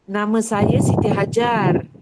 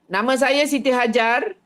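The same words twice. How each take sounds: First: It is said in a soft, gentle way. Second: It is said in a harsh, forceful way.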